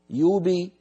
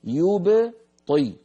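First: "يبي" بابتلاع الباء الساكنة; يحاكي الخطأ بضياع القلقلة; نطق خاطئ. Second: "يبطي" ببطء شديد وباء مقلقلة مبيّنة; يصحح بإظهار الباء كاملة; نطق صحيح. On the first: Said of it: "لا نقول". ("يبي" نطق مدموج خاطئ) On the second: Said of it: "إيش يبي هذه؟". ("يبطي" بقلقلة واضحة) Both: Shown as a demonstration.

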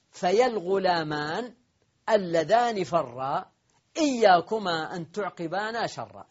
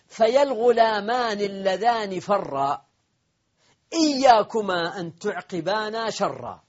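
First: Said in the usual way. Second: Slow, higher and louder declaimed verse; poem recitation. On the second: Shown as a demonstration. Teacher declaiming the poet's verse, slow and lifted. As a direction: lift each word of the couplet slowly. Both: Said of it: "ومنه قول الشاعر".

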